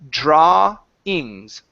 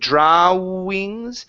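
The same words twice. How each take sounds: First: Only an ah sound is heard in the middle. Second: An oo sound is heard in the middle. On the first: The speaker calls it right. "It's only an ah. So this is drawings" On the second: The speaker calls it wrong. "instead of saying drawings, the W is not going to pronounce an oo sound"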